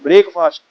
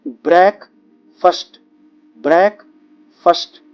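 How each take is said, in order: First: ब्रेकफास्ट as break-fast, the full a in fast; the mistaken version learners use; wrong pronunciation. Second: ब्रेकफास्ट drawn out very slowly as brekfust; teacher leads the class in repetition; slow repeat-after-me. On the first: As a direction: say ब्रेकफास्ट the common Indian way. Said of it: "ये pronunciation absolutely गलत है". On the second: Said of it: "अब मेरे साथ बोलिए". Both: Shown as a demonstration.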